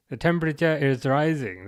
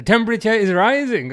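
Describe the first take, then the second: First: Said in the usual way. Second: Triumphant announcement. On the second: Acted. Proudly announcing the translation.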